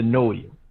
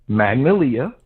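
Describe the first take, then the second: First: The first syllable is dropped from the name. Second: The full name is said, first syllable included.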